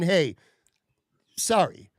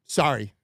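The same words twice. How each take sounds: First: Imitating a sincere, simple sorry; hey, a pause, then a sincere sorry; genuine apology. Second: Imitating an offhand, uncaring sorry; dismissive sorry. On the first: Manager owning up to a let-down customer, imitated genuine apology. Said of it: "A, a legit, genuine". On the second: Store guy brushing off an annoyed customer, mock dismissive apology. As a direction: toss off a short, indifferent sorry. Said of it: "kind of sorry".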